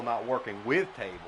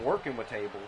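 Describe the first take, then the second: First: "with" picked out as the key word; stress on "with". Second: Said in the usual way. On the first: Real, not acted. Commentator correcting himself about tables, stress on "with". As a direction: lean on "with", the rest lighter.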